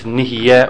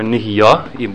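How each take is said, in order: First: The word ends with an 'eh' vowel. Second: The word ends with an 'ah' vowel. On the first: It means something comes to be, now or later. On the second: It means something came to be in the past.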